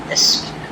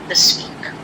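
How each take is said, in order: The two takes are said the same way.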